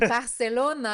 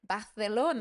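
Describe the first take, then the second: First: The c is a plain s sound. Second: The c is made with the tongue. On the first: The speaker calls it wrong. "It's not Barcelona" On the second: The speaker calls it right. "because you say it with a tongue"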